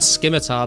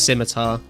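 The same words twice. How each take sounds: First: The word begins with an sk sound. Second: The word begins with a plain s sound. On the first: The speaker calls it wrong. "everyone just said scimitar back in the day because we were kids and didn't know how to pronounce it" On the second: The speaker calls it right. "but it is it is scimitar"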